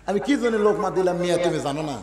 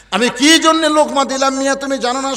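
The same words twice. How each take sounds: First: Said in the usual way. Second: High, raised voice; loud indignant retort. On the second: Acted. Shepherd challenging the man who scolded him, loud indignant retort. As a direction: throw the question back high and loud.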